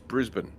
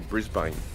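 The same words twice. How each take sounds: First: It is pronounced the local Australian way. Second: It is pronounced the typical American way. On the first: The speaker calls it right. "It's Brisbane" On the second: The speaker calls it wrong. "A lot of a lot of Americans say Brisbane"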